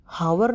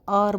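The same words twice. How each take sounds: First: हावर with the h sounded at the start; wrong pronunciation. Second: आर with silent h, starting on an open aa; correct pronunciation. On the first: Teacher showing pupils how hour is not said, h sounded. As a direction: say हावर, voicing the silent h. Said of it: "हावर नहीं बोलते". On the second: Teacher showing pupils how hour is said, h silent. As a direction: say आर, no h at all. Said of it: "हम इसको आर बोलते हैं". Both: Shown as a demonstration.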